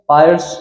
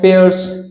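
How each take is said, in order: First: The vowel sounds like 'pie'. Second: The vowel sounds like 'pay'.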